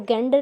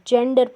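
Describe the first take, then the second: First: The word begins with a hard g sound. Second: The word begins with a j sound. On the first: The speaker calls it wrong. "इसको गेंडर नहीं पढ़ेंगे" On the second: The speaker calls it right. "जेंडर पढ़ते हैं"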